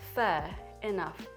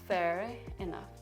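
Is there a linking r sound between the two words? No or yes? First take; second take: no; yes. First: The two words are said separately, unlinked. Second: An r sound links the two words together. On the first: "fair enough separately" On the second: "if you combine those two words"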